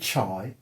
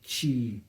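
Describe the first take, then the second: First: The name's vowel sounds like 'eye'. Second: The name's vowel sounds like 'ee'. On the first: The speaker calls it wrong. "not Andrew Chai, as some people have pronounced it" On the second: The speaker calls it right. "it's pronounced C H E E E"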